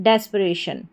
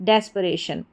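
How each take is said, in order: Both takes have the same delivery.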